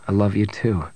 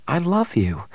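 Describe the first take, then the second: First: Loving Han. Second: Higher-pitched, tender woman's voice; loving Bria. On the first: Han returns Bria's declaration. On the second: Woman tells her rescuer she loves him, tender and higher. Bria declares love to Han. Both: Acted.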